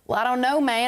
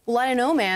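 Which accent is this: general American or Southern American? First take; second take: Southern American; general American. First: It is spoken in a Southern American accent. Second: It is spoken in a general American accent. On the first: "Mä laitan vähän etelävaltiota"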